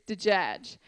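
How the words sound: It is said with j sounds. This is the word as it is written. "if you read every letter"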